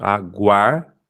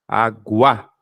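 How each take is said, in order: First: "Aguar" with the final R sounded; R joined on. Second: "aguá" ending on an open A, no R; syllable without R. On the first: Teacher correcting the syllable split for students, R joined on. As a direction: close the second syllable of "Aguar" on its R. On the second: Teacher splitting a word into syllables for students, syllable without R. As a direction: say "aguá" in two drawn-out syllables, dropping the R. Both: Shown as a demonstration. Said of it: "o R vem junto".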